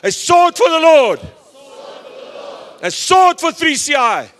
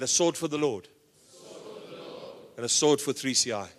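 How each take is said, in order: First: It is shouted loudly. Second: It is said at normal speaking volume.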